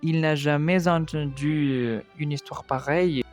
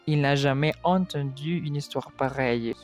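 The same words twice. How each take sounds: First: A linking consonant joins jamais to entendu. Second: The words are said without an added linking consonant. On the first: The speaker calls it wrong. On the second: The speaker calls it right.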